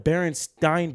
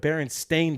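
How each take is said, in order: First: The last syllable rhymes with 'mine'. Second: The last syllable rhymes with 'rain'. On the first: The speaker calls it wrong. "It's not the Berenstein Bears" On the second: The speaker calls it right. "It's the Berenstain"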